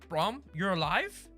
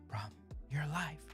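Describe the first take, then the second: First: It is said plainly, without tears. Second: It is said in a tearful whimper.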